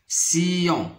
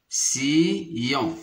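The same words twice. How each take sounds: First: Said in the usual way. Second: "sillon" split as si, pause, yon; syllable by syllable. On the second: Shown as a demonstration. Teacher counting syllables for pupils, "sillon" split in two. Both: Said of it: "on a deux syllabes".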